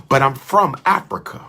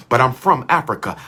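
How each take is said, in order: Both takes have the same delivery.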